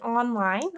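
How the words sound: It is said with English n and l sounds. "in English, it's easy to pronounce un and l together"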